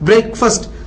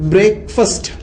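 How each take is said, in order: First: It is said as one word starting 'breck'. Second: It is said as 'brake' plus 'fast'. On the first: The speaker calls it right. "இதனுடைய உச்சரிப்பு பிரேக்ஃபாஸ்ட்" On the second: The speaker calls it wrong. "இது பிரேக்ஃபாஸ்ட்னு சொல்லிடக்கூடாதுங்க"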